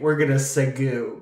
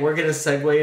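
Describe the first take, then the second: First: The last word is said as spelled, like ragu. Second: The last word is said the usual way. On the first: This imitates a podcast host's spelling-based version. "they say, we're going to segu, because that's how it's spelled" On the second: This is the ordinary way to say it. "rather than saying"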